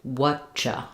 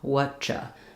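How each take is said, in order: Both takes have the same delivery.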